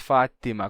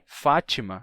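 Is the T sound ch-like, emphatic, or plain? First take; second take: plain; ch-like. First: The T is a plain, ordinary T. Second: The T sounds like a ch sound. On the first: This is the form adapted to the local language. "com T normal" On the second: This is a regional variant of the adapted form. "ou até mesmo com Tchê"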